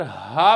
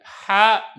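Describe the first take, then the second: First: "हा" as a deep breathed h; stretched "हा" from the chest; ha for round ta. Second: "हा" with a tight throat h; wrong ha. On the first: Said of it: "इसकी जगह पर हा पढ़नी है". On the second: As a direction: show the mistaken pharyngeal h in "हा". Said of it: "ये नहीं आपने पढ़नी है". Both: Shown as a demonstration.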